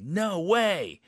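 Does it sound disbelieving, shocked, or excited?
excited. It sounds very happy and excited.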